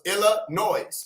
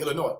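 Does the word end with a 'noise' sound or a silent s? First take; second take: noise sound; silent s. First: The word ends sounding like noise, with an s. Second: The word ends in a vowel, s silent. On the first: The speaker calls it wrong. "which is how I wanted to say the shit when we were younger" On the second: The speaker calls it right. "It's supposed to be Illinois"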